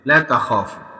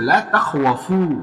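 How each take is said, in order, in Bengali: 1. এই শব্দে kh-এর পরে w শব্দ নেই। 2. এই শব্দে kh-এর পরে w শব্দ আছে। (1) "এই যে দেখো" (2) "এটা কি ছিল?"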